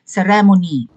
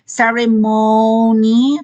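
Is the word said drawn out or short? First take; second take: short; drawn out. First: The word is said short and clipped. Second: The word is drawn out and prolonged. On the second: "parang prolonged"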